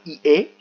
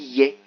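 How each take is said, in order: First: The i and é are two separate vowels. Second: It starts with a y glide into é. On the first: The speaker calls it wrong. "on ne dit pas ié" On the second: The speaker calls it right. "on dit yé, comme si il y avait un Y"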